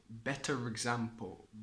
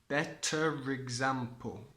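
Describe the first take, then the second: First: Said joined, with an R linking the words. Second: The same.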